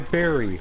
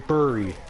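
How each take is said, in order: First: The first vowel sounds like 'e' in merry. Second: The first vowel sounds like a spelled 'u'. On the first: This is how most people say it. "Most people say berry" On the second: This follows the spelling. "I say bury. Because it's spelt with a U"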